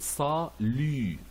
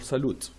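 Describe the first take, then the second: First: The word ends without a T sound. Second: The word ends with a T sound. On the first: The speaker calls it right. "So we pronounce it ça, lu" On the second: The speaker calls it wrong. "and not ... salute. We never pronounce this T"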